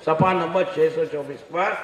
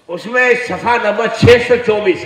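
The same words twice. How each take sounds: First: Said in the usual way. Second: उसमें सफ़ा number छह सौ चौबीस called out louder and higher, punching छह; emphatic dictation. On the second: Shown as a demonstration. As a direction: dictate the page number so they write it down. (ज़ोर देकर page number लिखवाना) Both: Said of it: "कितना लिख लो".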